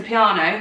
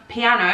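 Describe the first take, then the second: First: "piano" with a long AH, pee-AH-no; "piano" as pee-AH-no, broad middle vowel; piano rhymed with soprano. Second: Said in the usual way. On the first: Shown as a demonstration. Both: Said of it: "I was gonna say piano".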